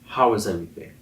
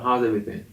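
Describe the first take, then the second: First: It is asked in a sincere, caring way. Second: It is asked in a casual, passing way.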